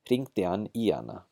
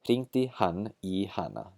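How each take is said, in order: First: The h sounds in both pronouns are dropped. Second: The h sounds in both pronouns are pronounced. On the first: "Apply the rule" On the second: "That's the very careful pronunciation"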